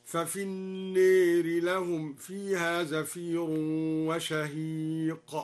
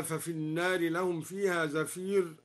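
First: Slow chanted recitation, النار tilted toward an "e" sound, like "an-neeri"; drawn-out tartil with النار said with imala, a fronted "ee/e" vowel. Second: Said in the usual way. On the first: Shown as a demonstration. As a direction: recite slowly, bending the long a of النار toward e. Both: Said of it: "أمال النار".

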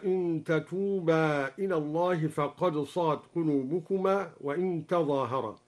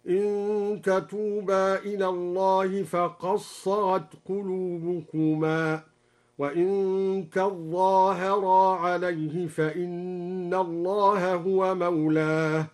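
First: Said in the usual way. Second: فقد صغت with dal merged into sad, تظاهرا with doubled za; slow chant, قد merged into صغت, تظاهرا with shadda; slow recited variant. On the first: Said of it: "هكذا". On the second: Shown as a demonstration. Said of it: "بإدغام الدال في الصاد وقرأ تظاهر بتشديد الظاء".

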